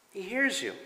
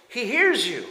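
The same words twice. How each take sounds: First: He hears you, HEARS said softly, dropped right down; soft repeat. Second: Forceful preaching. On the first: Pastor repeating to believers that God hears them, soft echo. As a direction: echo he hears you gently, pulled back. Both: Shown as a demonstration.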